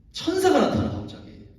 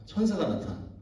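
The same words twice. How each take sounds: First: Storyteller's big reveal; dramatic reveal. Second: Said in the usual way. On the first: Real, not acted. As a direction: pitch leaps high on 천사가. Dramatic announcement of angel.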